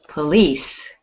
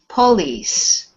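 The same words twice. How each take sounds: First: The stress is on the second syllable. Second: The stress is on the first syllable. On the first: The speaker calls it right. "So the stress is on lease" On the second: The speaker calls it wrong. "That would be police"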